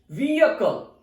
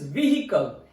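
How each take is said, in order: First: "vehicle" as VEE-uh-kul, silent H; British pronunciation. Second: "vehicle" as VEE-hi-kul, H sounded; American pronunciation. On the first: Teacher showing learners British "vehicle", VEE-uh-kul. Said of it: "It's British pronunciation". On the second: Teacher showing learners American "vehicle", VEE-hi-kul. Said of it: "its American pronunciation is". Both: Shown as a demonstration.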